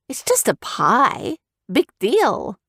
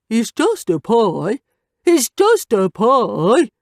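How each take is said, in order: First: Said in the usual way. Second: Slow sing-song mockery of just; mocking. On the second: A narrator's reading. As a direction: mimic her words nastily. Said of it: "Scout mocked".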